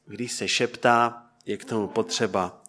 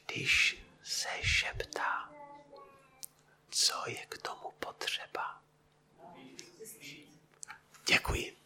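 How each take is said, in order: First: Said in the usual way. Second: Breathy voiceless whisper, slow. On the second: Shown as a demonstration. Preacher whispers the question to his congregation as a demonstration, whispering. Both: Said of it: "Tak já vám trošku povím".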